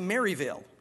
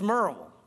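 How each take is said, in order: First: It is said in full, the non-local way. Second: It is squeezed short, the local way. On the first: The speaker is not from the area. The speaker calls it wrong. "you can always tell people that are not from here, they'll say Maryville" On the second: The speaker is from the area. The speaker calls it right. "It's Merle"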